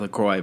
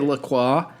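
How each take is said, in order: First: The name is said in a plain, ordinary way. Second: The name is said in an overcorrected, fancy way. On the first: The speaker calls it right. "you're supposed to say LaCroix" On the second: The speaker calls it wrong. "this overcorrection of trying to say something correctly and then saying it incorrectly"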